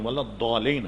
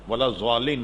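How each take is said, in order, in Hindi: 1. आखिरी शब्द की शुरुआत d जैसी आवाज़ से होती है। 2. आखिरी शब्द की शुरुआत z जैसी आवाज़ से होती है। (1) "वलद दौलीन है" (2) "वलद ज़ालिन नहीं है"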